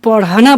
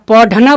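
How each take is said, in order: First: The middle consonant is a quick aspirated flap. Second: The middle consonant is a full aspirated stop. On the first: "अढ़ बोलते हैं" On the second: "ढ बोलते हैं"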